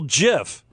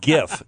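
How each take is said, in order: First: It starts with a soft G sound. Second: It starts with a hard G sound. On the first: The speaker calls it wrong. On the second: The speaker calls it right. "GIF with a hard G"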